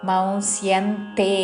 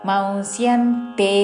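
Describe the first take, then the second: The two takes are said the same way.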